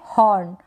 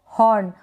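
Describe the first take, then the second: No difference in how they are said.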